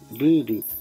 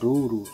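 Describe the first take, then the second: First: The vowel is pronounced as the umlauted ü. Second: The vowel is pronounced as a plain u. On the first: The speaker calls it right. "se pronuncia ruru, porque la vocal U tiene diéresis" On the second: The speaker calls it wrong. "no se pronuncia ruru"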